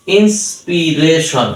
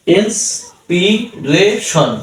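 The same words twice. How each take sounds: First: Said in the usual way. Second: inspiration very slow, with gaps between syllables; slow piece-by-piece demo of inspiration; split into syllables. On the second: Shown as a demonstration. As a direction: break inspiration into ins, পি, রে, শন. Teacher splits word into syllables.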